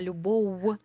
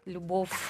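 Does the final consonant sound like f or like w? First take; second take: w; f. First: The final consonant sounds like a lip w. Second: The final consonant sounds like an f. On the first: The speaker calls it right. "а любов" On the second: The speaker calls it wrong. "не фекати"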